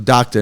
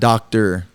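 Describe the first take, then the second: First: The word ends with a plain 'ah' sound. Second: The word ends with an 'or' sound. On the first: The speaker calls it right. "Just D O C T A. So doctor" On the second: The speaker calls it wrong. "not doctor"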